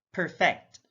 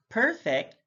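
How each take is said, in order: First: PerFECT, second syllable stressed; careful demo of perFECT. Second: PERfect, high PER; careful demo of PERfect; stress on first syllable. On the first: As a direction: hit the FECT in "perfect". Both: Shown as a demonstration. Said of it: "stress is the verbal emphasis used".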